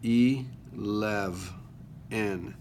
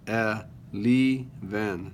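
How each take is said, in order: First: The second syllable has a short E sound. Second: The second syllable has a long E sound. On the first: The speaker calls it right. "It's a short E" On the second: The speaker calls it wrong. "It would be a long E"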